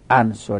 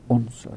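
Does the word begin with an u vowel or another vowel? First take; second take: other vowel; u vowel. First: The first vowel is not u. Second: The first vowel is u. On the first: The speaker calls it wrong. "نگو عنصر" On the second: The speaker calls it right. "بگو عنصر"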